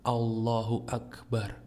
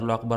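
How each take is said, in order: First: It is said slowly and calmly. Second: It is said fast and rushed.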